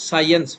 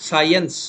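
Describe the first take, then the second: Both takes have the same delivery.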